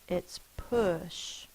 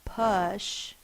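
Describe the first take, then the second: First: The vowel is the rounded sound as in book. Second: The vowel is the open sound as in up. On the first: The speaker calls it right. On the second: The speaker calls it wrong. "We don't say uh like in uh"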